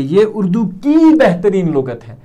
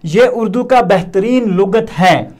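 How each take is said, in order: First: की stretched out and raised; stress on की. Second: Said in the usual way. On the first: Shown as a demonstration. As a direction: lean long on the word की. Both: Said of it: "या हम ऐसा नहीं बोलेंगे".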